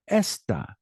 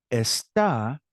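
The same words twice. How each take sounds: First: Esta with ES punched, falling away; stress on first syllable. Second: Está with a long stressed final syllable; stress on second syllable. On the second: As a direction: say Está, leaning on the last syllable. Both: Shown as a demonstration. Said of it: "how my voice raises".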